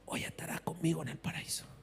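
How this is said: It is said in a weak, faint voice.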